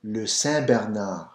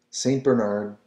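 First: "Saint" with a silent T, French "Bernard" with a throaty R; French pronunciation. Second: Saint Bernard said the English way, with the T and an English R; anglicised "Saint Bernard"; English reading. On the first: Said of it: "And Bernard is pronounced Bernard". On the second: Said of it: "So you're not pronouncing the T". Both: Shown as a demonstration.

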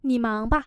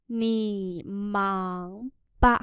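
First: Said in the usual way. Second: Drawn-out separate syllables; slow model reading. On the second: Shown as a demonstration. Teacher modelling "go on with your work" for learners, slowly. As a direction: sound out every syllable slowly.

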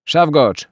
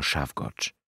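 First: Loud, high-pitched call across the compartment; sudden shout. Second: Said in the usual way. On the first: A narrator's reading. Soldier calling into the train compartment, sudden shout. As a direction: belt out the name. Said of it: "krzyknął nagle w głąb przedziału".

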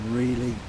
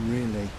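No difference in how they are said.

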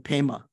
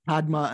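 First: "Pema" as pay-ma, no d; Tibetan pronunciation. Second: "Padma" with the d sounded; full d pronunciation. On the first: Teacher recalling the lotus example, Tibetan pronunciation. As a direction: say "Pema" with ay, d silent. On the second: Teacher recalling the lotus example, d sounded. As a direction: pronounce the d in "Padma". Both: Shown as a demonstration. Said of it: "similar to".

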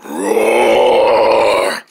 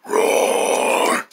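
First: A deep, full-voiced bear roar; the retake, a real rumbling bear roar; proper roar. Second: A soft, breathy, half-voiced roar; a timid roar that falls flat; weak roar. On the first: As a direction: give the roar its full weight this time. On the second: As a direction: roar under your breath, barely there. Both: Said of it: "let me do that again".

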